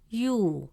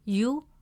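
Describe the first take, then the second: First: The vowel is long. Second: The vowel is short. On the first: "it stretches the short u sound into a long oo sound" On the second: "gives it a short u sound, pronounced as you"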